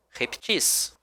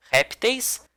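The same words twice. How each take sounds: First: "reptis" stressed on -TIS, softer; final-syllable stress. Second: "Répteis" stressed on RÉP, pitched high; first-syllable stress. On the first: Teacher recaps both variants for class, softer repTIS. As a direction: say repTIS softly, weight on the end. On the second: Teacher recaps both variants for class, RÉPteis. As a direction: say RÉPteis high, weak ending. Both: Shown as a demonstration. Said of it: "a semântica dela é igual".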